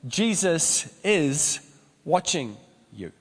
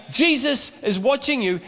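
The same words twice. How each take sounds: First: Pastor's slow, grave punchline; slow solemn warning. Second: High, squawky parrot call; a higher parrot voice calling across the room. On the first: Shown as a demonstration. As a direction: lay "Jesus is watching you" down slow and heavy. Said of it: "an important lesson here". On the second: Retold or imitated. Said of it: "as it came out again".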